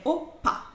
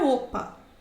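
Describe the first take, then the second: First: The p sound is strong and explosive. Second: The p sound is soft and plain. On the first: The speaker calls it right. "Tem um som mais forte, mais explosivo" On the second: The speaker calls it wrong. "Não é opa"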